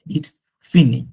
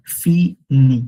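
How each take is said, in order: First: ফিনি whispered, no r sound, fee-nee; whispered French demo. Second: ফিনি said louder, final r silent, fee-nee; French pronunciation. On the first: Teacher correcting students' ফিনিশ, whispered French. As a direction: breathe ফিনি as a whisper, dropping the r. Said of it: "আরটা কিন্তু উচ্চারণ হবে না". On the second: Teacher showing students how ফিনি sounds, loud and clear. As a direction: punch ফিনি with no r at the end. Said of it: "sounds ফিনি". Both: Shown as a demonstration.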